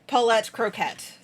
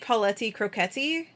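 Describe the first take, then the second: First: Each name ends on a consonant sound. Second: Each name ends with an extra vowel sound. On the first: The speaker calls it wrong. "It's not Paulette Croquette" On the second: The speaker calls it right. "It might be Pauletti Croquetti. That's what she says"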